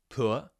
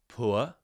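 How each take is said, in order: The two takes are said the same way.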